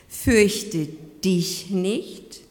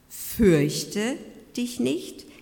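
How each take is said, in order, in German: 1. Die Betonung liegt auf dem Wort dich. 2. Die Betonung liegt auf dem Wort Fürchte. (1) "du persönlich bist angesprochen" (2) "im Sinne, hab keine Angst"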